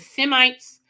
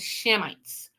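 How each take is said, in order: First: The word begins with a plain 's' sound. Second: The word begins with an 'sh' sound. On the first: "Some people pronounce it Semites, S I M I T E" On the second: "Some people Shemites, S H E M I T S"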